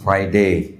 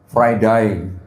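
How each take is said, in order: First: It is said with a British accent. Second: It is said with an Australian accent. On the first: "kalau di Inggris" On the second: "kalau di Australia"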